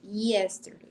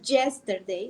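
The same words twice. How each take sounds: First: The initial Y is pronounced soft and light. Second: The initial Y is pronounced strong and hard. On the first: The speaker calls it right. "decimos yesterday, y, eh, como un I E" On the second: The speaker calls it wrong. "No decimos yesterday"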